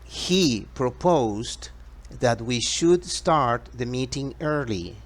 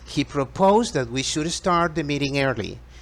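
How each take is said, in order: First: The sentence is spoken at a slower pace. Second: The sentence is spoken at a faster pace.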